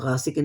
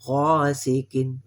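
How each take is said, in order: First: The first vowel is short and clipped. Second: The first vowel is stretched to two counts. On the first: The speaker calls it wrong. "ये गासिकिन कहेंगे तो ये गलत है" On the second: The speaker calls it right. "थोड़ा सा खींचना दो हरकत तक"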